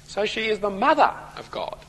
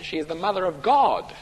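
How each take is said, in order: First: The stress falls on the word mother. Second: The stress falls on the word God. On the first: It expresses reverence and devotion to Mary. The speaker calls it wrong. "they've put the emphasis on the word mother" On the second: It affirms that Jesus is God. The speaker calls it right. "instead of putting the emphasis on the word God"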